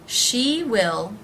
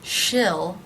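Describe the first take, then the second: First: The vowel is long, as in 'see'. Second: The vowel is short, as in 'sit'.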